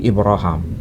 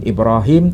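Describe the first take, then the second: First: The last vowel sounds like 'ah'. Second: The last vowel sounds like 'ee'. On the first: This is another permitted reading tradition. "tapi Ibraham" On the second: This is the usual way the name is read. "Kan Ibrahim"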